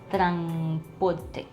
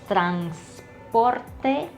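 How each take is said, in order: First: The s after the n is dropped. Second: The s after the n is pronounced. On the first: "we drop off the S sound" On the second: "instead of transporte"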